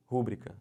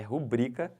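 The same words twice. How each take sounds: First: "Rúbrica" as RÚ-bri-ca; wrong stress on RÚ. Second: "rubrica" slowly as ru-BRI-ca; stress on BRI. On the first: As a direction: hit the first syllable of "Rúbrica". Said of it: "O pessoal fala como isso aqui?". ("Rúbrica" errado, tônica no RÚ) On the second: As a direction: land firmly on BRI in "rubrica". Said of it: "isso é paroxítona". ("rubrica" devagar, tônica no BRI) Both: Shown as a demonstration.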